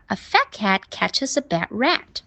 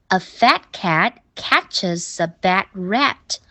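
First: Quicker take, "catches a" run together; faster linked reading. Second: "catches a" joined as catches-sa, at slow pace; slow linking. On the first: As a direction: speed it up, keeping "catches a" linked. (读快一点儿，catches a 连读) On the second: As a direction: read slowly, running "catches" into "a". (慢读，把 catches 和 a 连起来) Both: Shown as a demonstration. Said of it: "读快一点儿".

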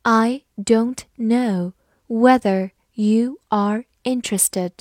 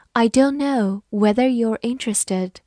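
First: Slow, deliberate sentence reading. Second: Said in the usual way. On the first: Shown as a demonstration. Teacher slowly reading the example to students. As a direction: spell out each word slowly for learners. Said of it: "好，我们慢慢来读". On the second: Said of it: "我们慢慢来读".

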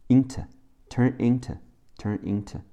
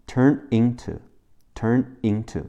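First: "into" ending in a light, unstressed "tuh"; weakened "to". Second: Said in the usual way. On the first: Shown as a demonstration. Teacher showing spoken English, weak "tuh" in "turn into". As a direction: reduce "turn into" to "turn in-tuh", last syllable soft. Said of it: "into的to会变成t，t，e，t". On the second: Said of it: "短语变成turn into".

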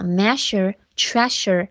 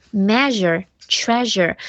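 First: "measure, treasure" with sh in the middle; hissing sh inside "measure, treasure"; voiceless sh. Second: "measure, treasure" with a buzzing zh in the middle; voiced zh. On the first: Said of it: "也可以读事儿啊". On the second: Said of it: "S U R E读日". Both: Shown as a demonstration.

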